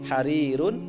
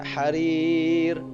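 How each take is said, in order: First: The word ends with the '-un' ending. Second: The word ends on 'r' with no ending. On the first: This is the full form of the word. "harirun dibaca harir" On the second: This is how it is read when stopping. "dibaca harir"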